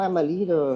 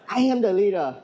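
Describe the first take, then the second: First: It is said flatly, with little energy. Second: It is said loudly, with lots of energy. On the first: The speaker calls it wrong. "That's not gonna work" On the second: The speaker calls it right. "you have to say it with enthusiasm"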